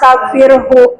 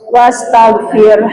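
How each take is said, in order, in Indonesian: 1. Kata ini diakhiri bunyi 'hu' tambahan. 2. Kata ini diakhiri bunyi 'r' yang berhenti. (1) "tapi berhenti. Salah itu hukumnya ya" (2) "kalau mau berhenti begitu"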